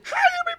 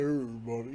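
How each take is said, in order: First: It is said in a lighter, higher voice. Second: It is said in a deep, manly voice.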